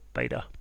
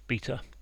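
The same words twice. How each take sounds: First: The word is said in an American way. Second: The word is said in a non-American way.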